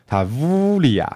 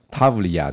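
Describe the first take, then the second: First: "Tavlia" as ta-VUUU-lia, slow, second syllable stretched; "Tavlia" with a long, falling "vu" in the middle; native Italian pronunciation. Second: "Tavlia" quick, as TAV-lia, stress at the front; "Tavlia" English-style, evenly short syllables; English-style pronunciation. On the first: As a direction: draw out "vu" in "Tavlia" and let it droop. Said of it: "那个V要稍微拉长一点". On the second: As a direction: say "Tavlia" with no long "u" after the v. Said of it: "英国式的或是美式的念法". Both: Shown as a demonstration.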